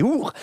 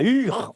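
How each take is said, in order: First: "Our" said as /uʀ/, with an ou sound; correct Our. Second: "Ur" said with a French u; the mistaken "Ur" the scholars scolded; wrong Ur. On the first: Actor repeats the scholars' correction, right Our. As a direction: give the scholars' proper "Our". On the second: Scholars correct the actor's reading, wrong Ur. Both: Shown as a demonstration. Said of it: "On ne dit pas Ur, on dit Our".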